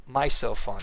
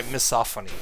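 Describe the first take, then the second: First: "misophony" with first syllable like "my"; mispronounced misophony. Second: "misophony" with short "mi", stress on SOPH; corrected misophony. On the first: Streamer misnaming a hatred of eating sounds, "misophony" said MY-so-phony. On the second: Streamer correcting own slip, "misophony" said mi-SOPH-ony. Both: Real, not acted.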